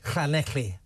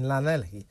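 First: The name is said with a Welsh pronunciation. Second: The name is said with an English pronunciation. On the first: "So I'll try a bit of Welsh" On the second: "That's not a very good pronunciation"

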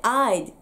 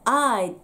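The two takes are said the same way.

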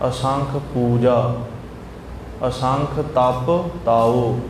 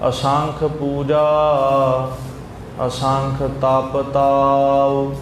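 The two takes are said the same way.

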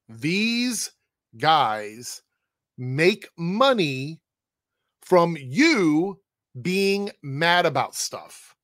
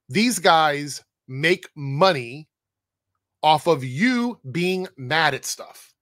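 First: It is said very slowly. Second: It is said at a normal speed.

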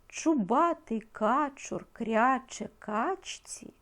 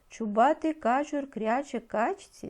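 First: The line is read at a slower pace. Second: The line is read at a faster pace.

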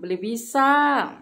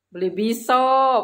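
First: The final vowel is an open 'a'. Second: The final vowel is an 'o'. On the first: This is how other Cirebon people say it. "Kalau bilang" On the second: This is how Panguragan people say it.

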